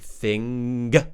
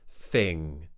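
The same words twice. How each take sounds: First: The final sound ends with a voiced burst. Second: The final sound ends softly without a burst. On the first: The speaker calls it wrong. "don't say thing. Don't release that sound with voice" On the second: The speaker calls it right. "Very gentle at the end"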